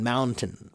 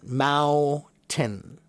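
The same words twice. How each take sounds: First: The middle N sound is pronounced. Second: The middle N sound is dropped. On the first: "I do try to pronounce the N" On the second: "There's no N when they say it"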